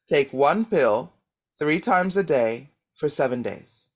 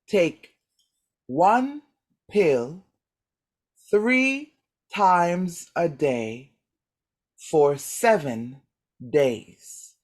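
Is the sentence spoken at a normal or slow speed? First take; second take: normal; slow. First: It is spoken at a normal conversational speed. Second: It is spoken at a slow, careful speed.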